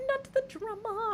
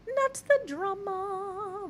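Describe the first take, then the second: First: High, slow not the drama; high drawn-out catchphrase. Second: High, slow sing-song not the drama; high drawn-out catchphrase. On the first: Streamer reacting to chat, high sing-song. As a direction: lift it up and drag it. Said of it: "catchphrase repeat". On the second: Streamer to chat, sing-song high not the drama. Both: Acted.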